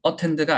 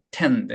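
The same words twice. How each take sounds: First: "attend" with a clearly voiced opening 어; full first vowel. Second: "tend" stressed, opening vowel almost gone; weak first vowel. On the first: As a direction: give the "a" of "attend" too much weight. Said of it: "attend가 아니고". ("attend"의 어를 또렷하게) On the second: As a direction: swallow the "a" and land on "tend". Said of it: "강세가 없는 몸을". (앞 모음을 줄이고 "tend"를 강하게) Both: Shown as a demonstration.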